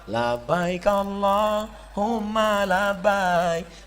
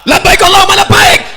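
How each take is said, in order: First: It is said softly, like a Javanese. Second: It is said loudly, like a Sumatran.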